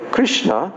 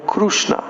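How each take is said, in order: First: The vowel after 'Kr' is an 'i' sound. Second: The vowel after 'Kr' is a 'u' sound. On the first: This is how the speaker's own group says it. "We call him Krishna" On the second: This is how Oriya speakers say it. "they call him Krushna in Oriya"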